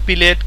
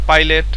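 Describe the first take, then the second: First: The first vowel sounds like 'ee'. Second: The first vowel sounds like 'eye'. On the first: "কেউ বলে পিলেট" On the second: "কেউ বলে পাইলেট"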